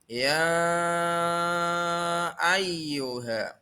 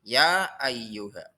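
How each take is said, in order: First: The vowel in 'ya' is held long. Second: The vowel in 'ya' is kept short. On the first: The speaker calls it right. "Jadi panjang" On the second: The speaker calls it wrong. "Tidak boleh ya ayyuha. Salah"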